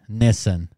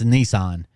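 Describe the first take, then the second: First: The name is given an Australian pronunciation. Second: The name is given an American pronunciation. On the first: "Nissen is what they, I guess they say in Australia" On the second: "in America, it's it's uh, it's Nissan"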